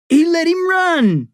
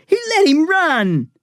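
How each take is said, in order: First: Much higher, louder, slow scream; furious boy screaming the accusation. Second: High, loud repeated scream; outraged boy repeating the accusation. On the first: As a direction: scream it with outrage. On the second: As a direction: scream it again, stressing let. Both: Acted. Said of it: "Eric screamed".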